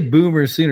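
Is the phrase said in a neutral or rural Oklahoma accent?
neutral. It is said in a plain, neutral accent. "He didn't say Boomer Sooner"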